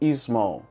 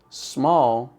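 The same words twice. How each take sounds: First: It starts with an added vowel, Brazilian style. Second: It starts directly with the s sound.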